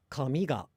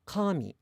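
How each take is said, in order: First: Rising kami, ga dropping; kami ga for hair. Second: Kami with the first syllable high, dropping on mi; high to low pitch accent. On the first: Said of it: "this hair is". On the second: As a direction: start kami high, then fall. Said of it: "pronounced high to low". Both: Shown as a demonstration.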